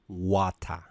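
It is said in a British accent.

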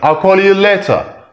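The t in later is a clear, crisp t. "British say later"

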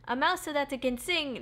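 It is said in a put-on character voice.

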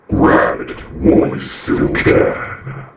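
It is said in a dramatic epic voice.

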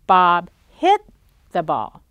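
The stress is on the word hit. It tells what Bob did to the ball. "Did Bob kick the ball? No"

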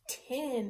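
The word is said as one smooth unit. "Tin is that full word"

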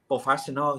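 It is said with a native-like accent. The speaker calls it right. "ถ้าเกิดเป็นแบบสำเนียงดีๆนะครับก็เป็น"

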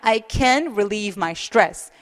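It is read relaxed, with stress and natural phrasing. The speaker calls it right. "이런 식으로 뭔가 여유롭게 강세를 주면서 자연스럽게 읽으시는 거"

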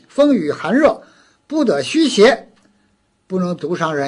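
The pause falls right after the word xie. Weather not yet turned into harmful evil cannot harm alone. "就把这逗号逗在邪字后边"

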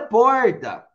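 It is said in an inland São Paulo accent. "Em São Paulo é porta, no interior"

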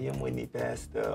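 It is said with a laughing, light tone. The scolding is not meant seriously.

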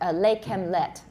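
It starts with L and has short vowels. The speaker calls it wrong. "You say them, lay kem let. ... That's what I usually hear"

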